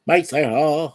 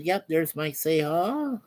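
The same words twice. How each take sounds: First: Louder, hyped-up name call; catchphrase shout-out. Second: Said in the usual way. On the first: Pretend. Host giving viewer a hyped shout-out, calling out. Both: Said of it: "That's what I say".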